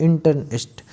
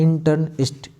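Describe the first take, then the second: Both takes have the same delivery.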